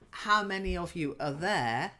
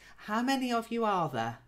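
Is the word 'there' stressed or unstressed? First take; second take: stressed; unstressed. First: The word 'there' is stressed. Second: The word 'there' is not stressed. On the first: It asks how many are at that place. The speaker calls it wrong. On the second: It asks how many people are in the group. The speaker calls it right.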